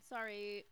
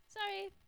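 First: Said in the usual way. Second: Sorry pitched way up; high squeaky sorry. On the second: Retold or imitated. Repeated sorry, second higher.

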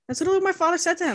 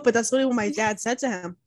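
First: A rushed, mock-formal repeat; mock posh retelling. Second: Said in the usual way. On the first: Retelling dad's words to friend, rushed mock voice. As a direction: rattle it off in a put-on voice.

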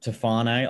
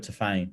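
First: Tofane said tuh-FAH-nay; usual pronunciation. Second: Tofane said tuh-FAYN; alternative pronunciation. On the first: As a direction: say Tofane with a final NAY syllable. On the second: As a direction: cut Tofane to two syllables, tuh-FAYN. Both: Shown as a demonstration. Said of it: "I've heard Tofane".

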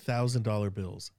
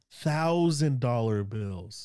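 First: Said in the usual way. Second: "Thousand dollar bills" drawn out slowly, word by word; emphatic repetition. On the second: Real, not acted. Student stressing to his friend what his roommate flashed, slow emphatic "Thousand dollar bills".

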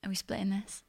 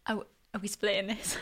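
First: A quiet imitation of a date splitting the bill; mumbled quote. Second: Mock quote. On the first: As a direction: mutter it sheepishly. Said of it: "getting to the drive-through bit at the end and going". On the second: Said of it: "is he getting to the drive-through bit at the end and going".

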